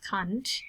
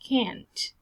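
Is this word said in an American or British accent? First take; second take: British; American. First: It is said in a British accent. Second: It is said in an American accent. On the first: "in British English, you read it as can't" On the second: "on American English, you read it as can't"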